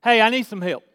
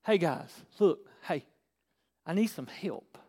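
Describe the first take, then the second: First: Easy, direct request at ordinary volume; just ask, without straining; simple asking. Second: Soft, low, halting appeal for help; seeking. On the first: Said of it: "That's asking". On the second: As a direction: go looking for help, calling quietly to people. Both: Shown as a demonstration.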